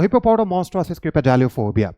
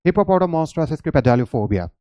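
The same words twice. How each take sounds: First: Hippopotamonstransis cryptogaleophobia said slowly, chunk by chunk; slow demo pronunciation. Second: Hippopotamonstransis cryptogaleophobia said slowly and evenly; slow demo pronunciation. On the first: Teacher demonstrating to students, slow careful pronunciation. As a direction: sound it out slowly for the class. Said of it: "इस word को pronounce करने". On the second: Teacher showing how easily it's said, slow careful pronunciation. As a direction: say it slowly in one go. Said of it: "कितनी आसानी से इस word को आप pronounce". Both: Shown as a demonstration.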